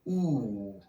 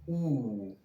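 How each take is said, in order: First: The vowel is a back oo sound. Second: The vowel is a back oo sound.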